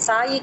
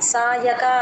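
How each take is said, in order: First: The middle syllable has an 'i' vowel. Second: The middle syllable has a plain 'a' vowel. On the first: The speaker calls it wrong. "సాయిక అంటారు చాలా మంది" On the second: The speaker calls it right. "సాయక అందరూ చూసుకోండి"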